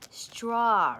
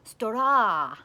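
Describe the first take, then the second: First: It is said with plain English sounds. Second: It is said with Japanese katakana-style sounds.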